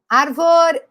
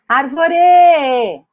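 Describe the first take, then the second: First: The stress is on the first syllable. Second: The stress is on the last syllable.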